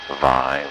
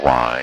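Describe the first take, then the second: First: The word begins with a V sound. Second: The word begins with a W sound.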